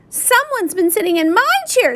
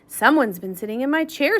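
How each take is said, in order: First: The voice is small and high. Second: The voice is deep and low. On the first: A small child is speaking. "said Baby Bear in his little voice" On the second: A large adult male is speaking. "said Papa Bear in his deep voice"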